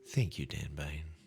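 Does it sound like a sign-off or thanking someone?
thanking someone. It sounds like thanking a person named Dan Bain.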